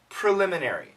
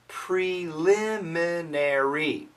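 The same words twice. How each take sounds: First: The word is said quickly and compressed. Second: The word is said slowly and carefully.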